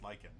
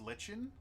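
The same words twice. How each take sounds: First: "lichen" said LIKE-en, with a hard k; actual pronunciation. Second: "lichen" said LITCH-en, with a ch sound; mistaken pronunciation. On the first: Player sharing the pronunciation learned years ago, "lichen" as LIKE-en. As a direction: say "lichen" to sound like "liken". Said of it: "it's actually pronounced lichen". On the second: Player admitting how they always thought it was pronounced, "lichen" as LITCH-en. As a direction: say "lichen" to rhyme with kitchen. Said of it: "I always thought it was pronounced". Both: Shown as a demonstration.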